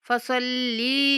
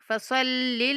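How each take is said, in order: First: The final vowel after the l is drawn out. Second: The final vowel after the l is kept short. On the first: The speaker calls it wrong. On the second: The speaker calls it right.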